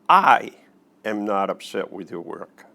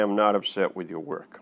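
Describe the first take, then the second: First: The stress falls on the word I. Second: No word is given special stress.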